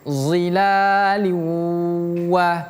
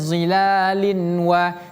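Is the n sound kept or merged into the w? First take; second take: merged; kept. First: The n sound merges straight into the w. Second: The n sound is pronounced before the w. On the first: The speaker calls it right. "harus uh, berpindah melebur ya" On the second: The speaker calls it wrong. "Tidak kita baca zilalin wa"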